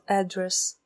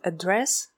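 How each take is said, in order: First: The stress is on the first syllable. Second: The stress is on the second syllable. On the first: It names where someone lives. "слово «адрес», которое звучит «address»" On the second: It means to speak to someone. "оно звучит «address», когда оно означает «обратиться к кому-то»"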